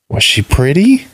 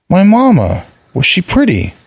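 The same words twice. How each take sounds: First: Put-on high little boy asking; a child asking with hope, higher; curious child. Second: Put-on high, pressing little boy voice; a child pushing for an answer; insistent child. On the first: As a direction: innocent childish question. Vali asks about his mother. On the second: Vali insists on his question. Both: A narrator's reading.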